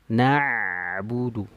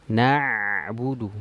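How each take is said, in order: The two takes are said the same way.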